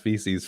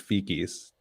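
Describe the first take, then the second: First: The middle consonant is a soft S sound. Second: The middle consonant is a hard K sound.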